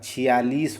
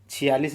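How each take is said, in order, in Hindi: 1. आख़िरी अक्षर का स्वर लंबा है। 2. आख़िरी अक्षर का स्वर छोटा है। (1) "छियालीस होता है" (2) "छियालीस नहीं होता"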